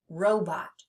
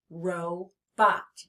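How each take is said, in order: First: Said in the usual way. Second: "robot" split slowly into ro, bot; teacher sounding out "robot" in two beats; split into syllables. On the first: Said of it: "let's try a word". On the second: Shown as a demonstration. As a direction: say "robot" syllable by syllable, pausing after ro. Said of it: "say the word slowly".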